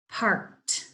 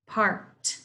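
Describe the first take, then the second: No difference in how they are said.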